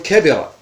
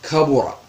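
First: The second vowel is a front i sound. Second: The second vowel is a rounded u sound. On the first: It describes a person or thing as old or big. "وإذا أردت أن تصف الذوات تخبر عن شخص معين تقول كبرة" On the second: It describes an abstract meaning as great. "إذا أردت أن تصف معنى بالعظم فإنك تقول كبرة"

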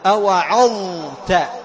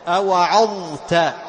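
Both takes have the same delivery.

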